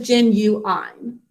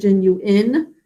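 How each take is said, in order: First: The last syllable has a long i sound. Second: The last syllable has a short i sound. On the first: This is a way of saying it to help with spelling. "we think of it as genuine" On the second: This is how the word is normally said. "it actually says genuine"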